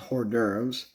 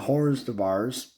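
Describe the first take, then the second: First: The ending sounds like 'durves'. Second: The ending sounds like 'de bars'. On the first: The speaker calls it right. "until I learned that was hors d'oeuvres" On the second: The speaker calls it wrong. "as I used to pronounce it"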